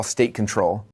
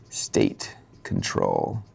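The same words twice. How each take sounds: First: Said in the usual way. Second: Very low, drawn-out put-on voice; dramatic deep echo. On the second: Shown as a demonstration. Speaker repeats his concept for effect, deep and slow. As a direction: stretch it out in a deep, ominous tone.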